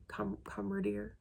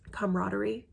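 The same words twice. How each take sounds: First: "camaraderie" said softly as com-ruh-deer; restart, then end "camaraderie" on a single -deer; doubtful, softer "camaraderie", last syllables squashed to -deer; alternate pronunciation. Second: "Camaraderie" said cam-rah-der-ee, rising in question; unsure "Camaraderie", sounding out every syllable; questioning pronunciation. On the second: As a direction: try "Camaraderie" with a full -der-ee ending. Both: Shown as a demonstration. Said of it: "I don't know".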